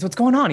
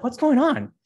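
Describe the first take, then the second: First: Louder, higher startled question; surprised brother. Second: Startled high question from the brother; surprised brother. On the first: Older brother calling to the servant, louder surprise. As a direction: blurt it out in disbelief. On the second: Older brother stumbling onto the party, surprised. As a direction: catch him off guard, pitch up. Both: Acted.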